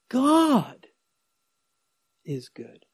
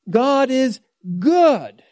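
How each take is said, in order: First: The stress falls on the word God. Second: The stress falls on the word good.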